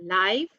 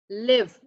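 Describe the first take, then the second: First: "live" with a long i, like "laiv"; adjective live. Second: "Live" with a short i, like "liv"; verb live. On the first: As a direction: say "live" to rhyme with "five". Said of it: "live is an adjective". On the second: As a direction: say "Live" to rhyme with "give". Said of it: "Live is a verb". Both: Shown as a demonstration.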